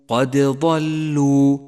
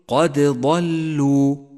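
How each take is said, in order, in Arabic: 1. تُنطق الدال مع ارتداد واضح. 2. تُنطق الدال مع ارتداد واضح.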